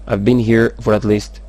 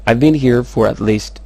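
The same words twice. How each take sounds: The two takes are said the same way.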